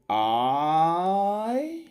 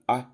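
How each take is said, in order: First: The vowel is drawn out long. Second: The vowel is kept short. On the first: The speaker calls it wrong. "if you produce it I, you are going to be wrong" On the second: The speaker calls it right. "this would be the good way"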